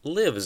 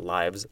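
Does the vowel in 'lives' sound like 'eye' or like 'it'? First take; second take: it; eye. First: The vowel sounds like the vowel in it. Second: The vowel sounds like the word eye. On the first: Someone resides somewhere. The speaker calls it right. "lives across the street from us" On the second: It is the plural of life. The speaker calls it wrong. "Oh no, not lives"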